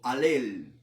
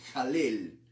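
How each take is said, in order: First: The word starts directly with the vowel. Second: The word starts with an audible H sound.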